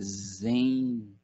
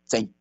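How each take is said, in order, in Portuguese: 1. A palavra é pronunciada com sons suaves e relaxados. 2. A palavra é pronunciada com sons nítidos e bem marcados. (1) "a nossa pronúncia aqui na América ela é muito mais suavizada" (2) "eles falam zen"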